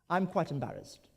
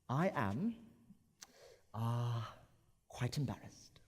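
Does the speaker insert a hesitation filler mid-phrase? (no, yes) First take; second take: no; yes. First: It is said smoothly with no filler sound. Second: A hesitation filler comes before the word quite. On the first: It is a plain statement. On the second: The speaker is really embarrassed. "with the crutch word, it actually adds a certain level of intention"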